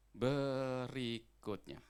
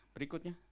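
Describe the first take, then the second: First: Very slow, stretched "Berikutnya"; drawn-out announcement. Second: Said in the usual way. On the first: Real, not acted. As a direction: draw each syllable of "Berikutnya" out long. Stretched announcement, then repeated normally. ("Berikutnya" diucapkan panjang mengulur)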